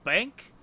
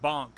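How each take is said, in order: First: The vowel sounds like the one in 'bank'. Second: The vowel sounds like the one in 'bonk'. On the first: The speaker calls it wrong. "I'm pronouncing it wrong" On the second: The speaker calls it right. "It's like Bonk or something like that"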